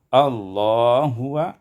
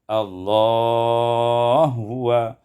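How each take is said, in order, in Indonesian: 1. Vokal ditahan sebentar saja. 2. Vokal ditahan dengan durasi sedang.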